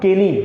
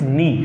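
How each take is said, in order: First: The k is pronounced before the n. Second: The k is silent; it starts with n. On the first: The speaker calls it wrong. "This is not केनी" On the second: The speaker calls it right. "This is नी"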